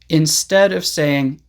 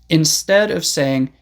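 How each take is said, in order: Both takes have the same delivery.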